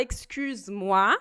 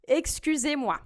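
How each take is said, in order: First: EXCUSE-MOI com Z colado em "muá"; forma sem E. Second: EXCUSEZ-MOI com "zê" antes de "muá"; forma com E. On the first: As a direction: say EXCUSE-MOI without the "zê" syllable. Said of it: "se você fala". ("excuse-moi" pronunciado sem E) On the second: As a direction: keep a clear "zê" in EXCUSEZ-MOI. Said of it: "Então". ("excusez-moi" com o E pronunciado) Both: Shown as a demonstration.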